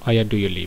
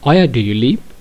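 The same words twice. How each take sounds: First: It is said with a plain statement tune. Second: It is said with a questioning tune. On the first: It is just an ordinary remark, not a question. "সচরাচর যদি সাধারণ কথার মতো আমি যদি বলি সেক্ষেত্রে এভাবে বলতে হবে" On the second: Someone is being asked where they live. "প্রশ্ন করি এভাবে বলতে হবে"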